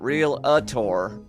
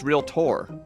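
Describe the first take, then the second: First: An extra vowel gives the word three syllables. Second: No extra vowel, so the word has two syllables. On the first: The speaker calls it wrong. "they always pronounce it Real-a-tor" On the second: The speaker calls it right. "There's no I. It's Realtor"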